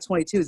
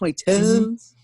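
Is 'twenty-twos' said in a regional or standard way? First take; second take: standard; regional. First: It is said in a standard pronunciation. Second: It is said in a Southern slang pronunciation. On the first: The speaker calls it wrong. "It's not twenty-twos" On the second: The speaker calls it right. "It's twenty-twos"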